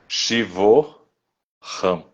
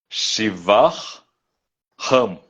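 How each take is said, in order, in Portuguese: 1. A primeira palavra termina com som de 'o'. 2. A primeira palavra termina com som de 'ah'. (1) "O A H ele some, vira O e põe um apóstrofo" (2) "Shiva, declinado no nominativo, vira Shivar"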